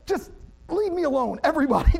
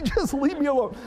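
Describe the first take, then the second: First: Frustrated outburst. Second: High, half-laughing exasperated plea; laughing frustrated repeat. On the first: Wet and furious dad venting at everyone on the boat, exasperated. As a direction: snap at the whole family. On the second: Dad venting again at his family, half-laughing exasperation. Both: Retold or imitated. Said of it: "It's like".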